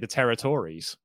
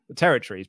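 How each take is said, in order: First: The ending is said fully, like 'terri-tories'. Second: The ending is squeezed to sound like 'terror trees'. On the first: "territory sounds like some really bad Conservative Party members" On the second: "Yours sounds like really scary trees. Terror trees"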